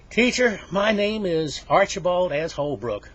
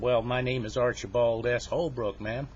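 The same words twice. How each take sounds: First: Loud, high, slow announcement; pupil reciting formally. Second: Said in the usual way. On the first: Acted. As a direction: declare it to the whole class. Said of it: "I want you to give your name that way". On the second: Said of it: "that's really no way to give your name".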